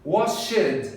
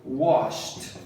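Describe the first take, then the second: First: WASHED as two syllables, wash-ED; wrong "Washed" with an added "ed"; mispronounced extra syllable. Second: WASHED as one syllable, "washt"; "Washed" with silent e; no added syllable. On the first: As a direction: sound out the -ed in "Washed". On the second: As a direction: end "Washed" on a sharp sht, lower. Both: Shown as a demonstration. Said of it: "Sem adicionar uma sílaba".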